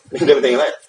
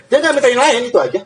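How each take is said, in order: First: Said in the usual way. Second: High, mocking echo of his regret; mock whiny. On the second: Preacher mocking the man who asked for nothing else, high and whiny.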